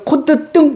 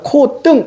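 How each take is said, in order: First: The first syllable ends with a 't' closure. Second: The first syllable ends without a 't' closure. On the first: "이것도 맞아요" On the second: "이것도 맞고요"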